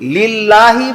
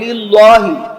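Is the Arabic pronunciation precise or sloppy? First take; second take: precise; sloppy. First: The Arabic sounds are pronounced precisely. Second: The Arabic sounds are pronounced sloppily. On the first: The speaker calls it right. "বলবে না" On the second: The speaker calls it wrong. "বলবে"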